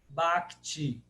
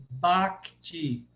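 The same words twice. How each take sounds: Both takes have the same delivery.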